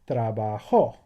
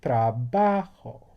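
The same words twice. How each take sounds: First: The stress falls on the last syllable. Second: The stress falls on a syllable before the last. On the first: He or she worked. "I'm stressing that syllable" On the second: I work. "So we're stressing that syllable"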